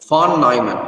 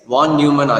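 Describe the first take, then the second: First: The name is said with German pronunciation. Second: The name is said with English pronunciation. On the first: "it should be pronounced as von Neumann because it's a German word" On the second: "or else you can simply say it as von Neumann"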